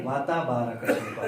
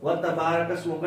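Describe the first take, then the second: First: وَتَبَارَكَ اسْمُكَ begun "wa-ta", each syllable on its own; separated syllables. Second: وَتَبَارَكَ اسْمُكَ begun "watta", وا fused to a doubled تا; joined syllables. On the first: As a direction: keep وا apart from a single تا in وَتَبَارَكَ اسْمُكَ. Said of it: "وا کو تا کے ساتھ نہیں ملانا". (وَتَبَارَكَ اسْمُكَ، واو اور تا الگ الگ) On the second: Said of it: "نہیں ہے". (وَتَبَارَكَ اسْمُكَ، واو کو تا سے ملا کر) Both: Shown as a demonstration.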